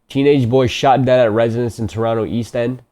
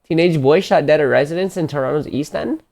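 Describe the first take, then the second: First: It is read in the speaker's usual accent. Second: It is read in a put-on Canadian accent.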